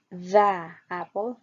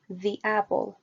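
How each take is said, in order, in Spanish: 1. El artículo lleva el acento y el énfasis. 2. El artículo no lleva acento y el sustantivo sí. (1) "cuando queremos enfatizar el artículo, sí podemos decir the apple" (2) "lo ideal es hacerlo como the, the apple, con un sonido similar a la I"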